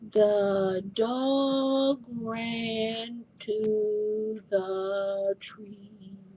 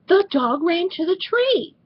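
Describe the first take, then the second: First: It is read in a flat monotone. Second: It is read with lively, animated expression. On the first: The reader is only sounding out the words. The speaker calls it wrong. "What am I talking about when I say monotone voice?" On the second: The reader understands and brings the story alive. The speaker calls it right. "But if you read, guess what?"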